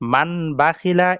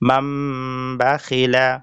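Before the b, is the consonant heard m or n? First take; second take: n; m. First: An n sound is heard before the b. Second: A nasal m sound is heard before the b. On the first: The speaker calls it wrong. "এটা না পড়ে পড়তে হবে মিম দিয়ে" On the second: The speaker calls it right. "মিম দিয়ে"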